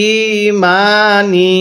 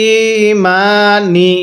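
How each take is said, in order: The two takes are said the same way.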